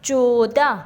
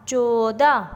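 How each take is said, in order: First: Said in the usual way. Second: چودہ with a long "o", cho-o-da; teacher stretching چودہ for learners; drawn-out pronunciation. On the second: Shown as a demonstration. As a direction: sound out چودہ slowly. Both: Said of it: "آپ کو اس کے بولنے سے".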